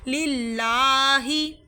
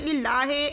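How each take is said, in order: First: The final vowel is a clear long 'ee'. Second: The final vowel is an 'ay'-like sound. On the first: The speaker calls it right. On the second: The speaker calls it wrong.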